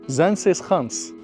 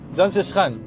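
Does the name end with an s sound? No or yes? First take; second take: yes; no. First: The name ends with a final s sound. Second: The name ends without a final s sound. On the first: The speaker calls it right. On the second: The speaker calls it wrong.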